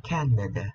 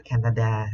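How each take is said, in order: First: Canada with the last syllable reduced to a light "ờ"; Canada falling away to an unstressed "uh"; English Canada. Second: Canada with a full "đa" on the end; Canada ending in an open Vietnamese "a"; Vietnamese-style Canada. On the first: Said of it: "chúng ta đọc nhẹ thành ờ thôi". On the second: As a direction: say Canada the Vietnamese way, last syllable a clear "đa". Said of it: "Không đọc là Canada giống như tiếng Việt". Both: Shown as a demonstration.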